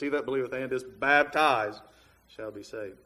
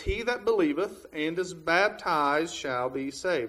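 First: The word baptized is strongly emphasized. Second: The word baptized gets no special emphasis.

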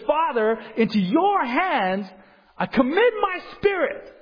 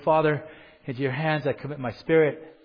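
First: It is said in a loud, strong voice. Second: It is said in a weak, breathy voice. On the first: It is a cry of victory. The speaker calls it right. "this was with a loud voice. This is a calling out, a scream of victory" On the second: He is dying and running out of strength. The speaker calls it wrong. "in kind of a heavy, you know, kind of breathy voice"

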